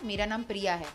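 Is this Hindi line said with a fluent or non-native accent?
fluent. It is said in a fluent, natural Hindi accent. This is how the script line should sound. "स्क्रिप्ट मिला था"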